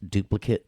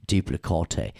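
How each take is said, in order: First: Said in the usual way. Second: "duplicate" said as doo-plih-kaw-TAY; comic "duplicate" with a long TAY ending; playful mispronunciation. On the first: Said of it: "Actually, it's, it's duplicate". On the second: Shown as a demonstration. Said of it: "way more fun to say duplicate".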